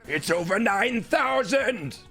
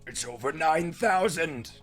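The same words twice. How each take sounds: First: It is yelled loudly in a raspy character voice. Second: It is said without yelling, at lower volume. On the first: "That's my best Nappa and Vegeta impression" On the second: "I can't do that like the yell"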